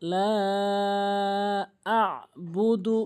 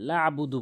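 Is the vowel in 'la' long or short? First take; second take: long; short. First: The vowel in 'la' is drawn out long. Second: The vowel in 'la' is cut short. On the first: The speaker calls it right. "এখানে আমরা অবশ্যই তিন আলিফ টেনে পড়বো" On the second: The speaker calls it wrong. "অনেকেই টেনে পড়ে না লা আবুদু বলে"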